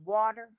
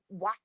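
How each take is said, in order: First: The middle consonant sounds like a soft D. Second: The middle consonant is a clear T. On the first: This is how the speaker's own group says it. "like we say water" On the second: This is how other people say it. "and then people say water"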